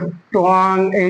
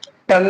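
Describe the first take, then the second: First: It is said as twang, with a w. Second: It is said as tung, with no w. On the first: The speaker calls it wrong. "इस तरीके से नहीं पढ़ेंगे" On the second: The speaker calls it right. "जैसे टंग है"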